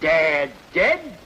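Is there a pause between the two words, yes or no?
no. The two words run together without a pause.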